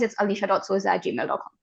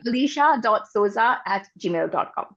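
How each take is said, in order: First: It is said fast. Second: It is said slowly.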